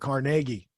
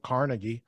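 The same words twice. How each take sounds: First: It is said the local Pittsburgh way. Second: It is said the standard, non-local way.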